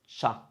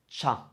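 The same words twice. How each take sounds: No difference in how they are said.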